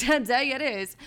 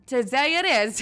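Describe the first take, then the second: First: "Today it is" said through a laugh; amused echo of "Today it is"; laughing repeat. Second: Said in the usual way. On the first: Real, not acted. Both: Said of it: "repeated with laugh".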